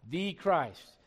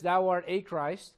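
First: "The" said as a stressed "thee". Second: "a" said as a full, stressed "ay". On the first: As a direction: lean on the definite article "The". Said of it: "That's a definite article". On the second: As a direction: lean slowly on the article "a". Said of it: "It's not just". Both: Shown as a demonstration.

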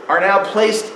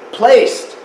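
First: Higher pitch on placed; first push on placed; placed stressed. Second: Placed high and louder; placed hammered. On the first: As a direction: lean on placed. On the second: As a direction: hit placed hard. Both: Real, not acted. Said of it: "not voted, but placed".

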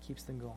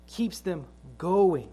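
First: Much softer and lower, letting "going" drop away; quiet echo. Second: Said in the usual way. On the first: Acted. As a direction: repeat "Keeps them going" almost under the breath. Quiet echo of the same phrase.

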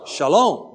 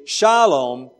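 First: Shalom stressed on the end, sha-LOM; last-syllable stress. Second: Shalom stressed up front, SHA-lom; first-syllable stress. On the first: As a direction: land the accent on the second syllable of shalom. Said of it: "with the accent on the last syllable". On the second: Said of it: "So we don't say". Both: Shown as a demonstration.

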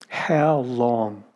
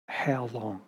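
First: Said in the usual way. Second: "How long?" dropped much softer, almost spoken to himself; fading echo. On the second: Shown as a demonstration. Preacher echoing David's lament to the congregation, trailing off softly. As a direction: let "How long?" fall away into a hush.

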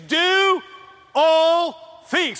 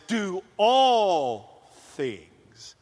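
First: Higher and louder, declaiming; loud proclaimed quote. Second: Stretched very slowly; slow solemn quote. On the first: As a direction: proclaim it to the room. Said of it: "he says". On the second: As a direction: drag each word out with weight. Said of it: "God says". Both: Retold or imitated.

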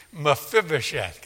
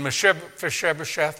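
First: Mephibosheth carefully as "muh-FIB-uh-sheth"; said slowly. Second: Mephibosheth garbled as "Mesheb-Fesheb-esheth"; tongue-tied. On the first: Preacher retries the hard name, Mephibosheth said carefully. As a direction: sound out Mephibosheth syllable by syllable. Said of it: "gotta say that slowly". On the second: Preacher finds the name hard, stumbles over Mephibosheth. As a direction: trip over Mephibosheth, swapping in "sh" sounds. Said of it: "hard for me to say". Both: Real, not acted.

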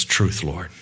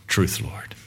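First: Said in the usual way. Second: Soft whisper, hushed and humble; a hushed, humble whisper to the Lord; whispered humble plea. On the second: Acted. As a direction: breathe it out as a whisper. Woman's humble reply, said twice.

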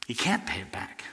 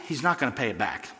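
First: Whispered. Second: Said in the usual way. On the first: Shown as a demonstration. Preacher telling his church the debtor can never repay, in a whisper. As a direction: drop to a soft unvoiced whisper on every word.

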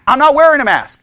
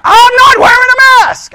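First: Said in the usual way. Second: High, loud defiant yell; raised voice. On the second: Retold or imitated. Man refusing hospital staff's request, raised-voice yelling. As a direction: shout the refusal at full volume. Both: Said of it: "he starts raising his voice".

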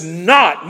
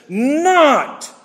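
First: "not" said once in passing, only a little louder; first reading of not. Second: "Not" punched much higher and held as one word; emphatic not. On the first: Preacher reading the verse, first pass on "not". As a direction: read "not" as it falls in the verse, lightly. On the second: Preacher showing his congregation the emphatic Not. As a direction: hit "Not" hard and high, standing alone. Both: Shown as a demonstration. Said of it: "not's emphatic".

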